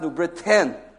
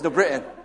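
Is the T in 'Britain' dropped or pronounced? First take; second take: pronounced; dropped. First: The T in Britain is clearly pronounced. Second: The T in Britain is dropped. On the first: This is the standard pronunciation. "It's actually pronounced New Britain with a T" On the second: This is how people who grew up there say it. "you don't pronounce the T"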